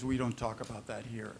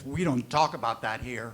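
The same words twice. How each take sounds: First: It sounds calm and neutral, like plain information. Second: It sounds stern and scolding, like a reprimand. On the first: It simply states a family norm as information. "it just could be an adult information" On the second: The topic is forbidden and the listener is being corrected. "that would be parent"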